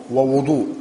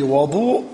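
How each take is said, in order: First: Short rounded "u" after the second w in ووضوء; damma on the waw. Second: Short open "a" after the w in وضوء; fatha on the waw. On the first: Teacher naming the act of washing, ووضوء said "wa-wuDU'" with damma. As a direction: say ووضوء as wa-wuDU', the word itself opening on "wu". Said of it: "وبضمها هو للفعل". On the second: Teacher naming the water, وضوء said "waDU'" with fatha. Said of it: "بفتح الواو". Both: Shown as a demonstration.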